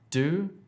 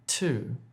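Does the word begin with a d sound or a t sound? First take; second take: d sound; t sound. First: The word begins with a d sound. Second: The word begins with a t sound. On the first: The speaker calls it wrong. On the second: The speaker calls it right.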